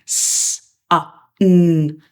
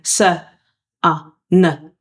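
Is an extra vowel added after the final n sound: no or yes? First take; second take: no; yes. First: The final n is a pure sound without vowel. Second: An extra vowel follows the final n sound. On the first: The speaker calls it right. "So we do the unvoiced" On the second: The speaker calls it wrong. "your blended together would be sunna"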